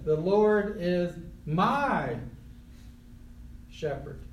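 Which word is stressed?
my. The word my carries the stress. The shepherd belongs personally to the one speaking. "And if you know Jesus, he's your shepherd"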